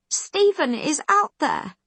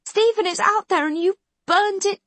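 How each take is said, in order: First: High, loud cry with weight on "out"; "Stephen is out THERE", stress landing on "out"; screaming. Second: Highest, loudest screamed accusation; "STEPHEN is out there", hit "Stephen" hardest; screaming louder. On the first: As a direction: Khan screaming at McQueen. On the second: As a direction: Khan screaming that he burned the town. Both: A narrator's reading. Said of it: "she's still screaming at him".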